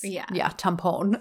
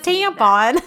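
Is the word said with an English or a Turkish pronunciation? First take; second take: Turkish; English. First: The word has Turkish vowel sounds. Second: The word has English vowel sounds. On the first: The speaker calls it right. "it's not pronounced that way. It's, tampon" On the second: The speaker calls it wrong. "our crass American is like, it's a tampon"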